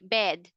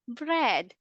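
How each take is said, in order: First: The word is said without the r sound. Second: The word is said with the r sound. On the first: The speaker calls it wrong. "uulitin ng estudyante" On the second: The speaker calls it right.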